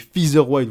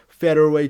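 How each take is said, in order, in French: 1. Il est prononcé avec un accent français. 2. Il est prononcé avec un accent proche de l'anglais. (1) "Moi, je dis featherweight" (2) "j'ai pas envie de dire euh, featherweight"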